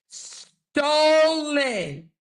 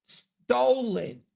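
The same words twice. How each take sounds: First: "Stolen" very high and stretched long; drawn-out emphasis. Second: "Stolen" said higher with a falling end; emphatic repeat. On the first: Host accusing quote thieves, "Stolen" high and drawn out. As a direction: hold the first syllable of "Stolen" high, then fall. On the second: Host accusing quote thieves, "Stolen" as a higher falling repeat. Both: Real, not acted.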